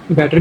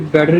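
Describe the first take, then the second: First: The middle consonant is a clear t sound. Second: The middle consonant sounds like a soft d. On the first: "ये बेटर भी ठीक है" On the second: "ये एक डी जैसी आवाज़ देगा"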